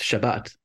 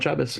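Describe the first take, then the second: First: It uses the standard, non-Ashkenazi pronunciation. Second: It uses the Ashkenazi Jewish pronunciation. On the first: This is the original form of the word. The speaker calls it right. "If we want the right pronunciation, it's Shabbat" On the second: This is a later regional form of the word. The speaker calls it wrong.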